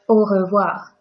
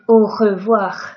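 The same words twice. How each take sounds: First: The R is soft with a light vibration. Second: The R is exaggerated and harsh in the throat. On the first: The speaker calls it right. "So let's just make it soft" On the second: The speaker calls it wrong. "But I'm not saying au revoir, okay? This sounds quite bad and it's hurting me"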